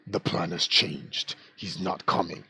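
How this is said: It is read in a put-on character voice.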